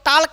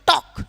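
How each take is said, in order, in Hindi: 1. K से पहले L बोला जाता है। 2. K से पहले L मौन है। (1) "इसको टाल्क नहीं पढ़ेंगे" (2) "इसको पढ़ेंगे टॉक"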